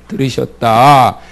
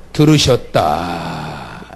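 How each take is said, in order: First: Said in the usual way. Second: Very slow, much lower: 들으셨다; 들으셨다 stretched low; slow low answer. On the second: Shown as a demonstration. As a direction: drag out 들으셨다 deep and slow. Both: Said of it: "뭐라고요?".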